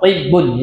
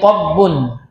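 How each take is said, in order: First: The first vowel is a high i sound. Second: The first vowel is an open a sound.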